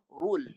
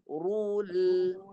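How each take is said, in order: First: The r sound is short and single. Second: The r sound is held and doubled. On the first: The speaker calls it wrong. "Kalau satu tanda, rule. Yang salah" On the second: The speaker calls it right. "Yang betul"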